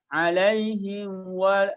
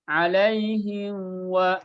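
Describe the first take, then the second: First: The lips rush to w, blurring the m. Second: The same.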